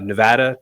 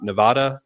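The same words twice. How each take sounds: First: The name is said the way locals say it. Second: The name is said the way outsiders say it. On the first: The speaker is from Nevada. The speaker calls it right. "Nevada, not Nevada" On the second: The speaker is not from Nevada. The speaker calls it wrong. "We will be able to identify you quickly as not from here"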